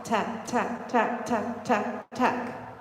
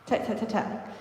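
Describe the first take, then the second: First: Tap, tap voiced and punched on every beat; accented taps. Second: Tap, tap, tap, tap breathed without voice; Tap, tap, tap, tap as soft unvoiced clicks; whispered taps. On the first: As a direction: tap tap said crisp and even on each beat. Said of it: "I'm not hitting the accent of tap". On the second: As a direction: barely sound each tap. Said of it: "Or if I was doing, like, a Omi". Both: Shown as a demonstration.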